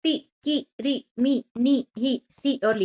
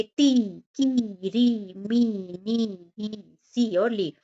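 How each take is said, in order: First: "ती, की, री, मी, नी, ही, सी और ली" each with a brief i; higher-pitched drill of short i in "ती, की, री, मी, नी, ही, सी और ली"; short quick vowels. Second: "ती, की, री, मी, नी, ही, सी और ली" each with a long i; long vowels. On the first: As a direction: clip each i short, as separate syllables, in "ती, की, री, मी, नी, ही, सी और ली". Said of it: "छोटी की मात्रा को जल्दी से बोलते हैं". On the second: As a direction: stretch every i in "ती, की, री, मी, नी, ही, सी और ली". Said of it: "स्वर में बोलते हैं". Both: Shown as a demonstration.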